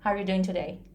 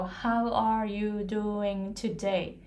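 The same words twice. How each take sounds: First: The phrase is compressed into a short time. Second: The phrase is stretched out and takes longer. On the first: The speaker calls it right. "They start and finish at the same timing" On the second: The speaker calls it wrong. "They don't go"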